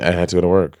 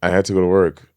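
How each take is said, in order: Both takes have the same delivery.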